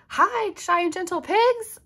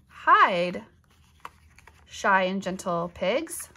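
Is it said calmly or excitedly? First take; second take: excitedly; calmly. First: It is said excitedly, like an exclamation. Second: It is said calmly, like a plain command.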